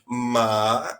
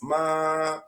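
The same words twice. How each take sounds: First: The pitch falls and then rises again. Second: The pitch stays level and steady. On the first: It means horse. "You you decrease and raise the sound" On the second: It means mother. "is like regular"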